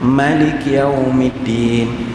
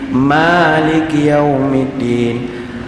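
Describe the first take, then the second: First: The first vowel, 'ma', is kept short. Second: The first vowel, 'ma', is held long. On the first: It follows the reading of most reciters. "Bacaan lain semua ma pendek" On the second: It follows the reading of a minority of reciters. "baca ma panjang"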